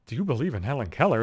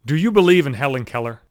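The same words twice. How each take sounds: First: A quieter, stunned repeat of the question; an incredulous murmur, rising at the end; disbelieving echo. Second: Said in the usual way. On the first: Retold or imitated. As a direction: say it back to yourself in disbelief, under your breath. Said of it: "I'm not paying attention". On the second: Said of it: "one of them just said".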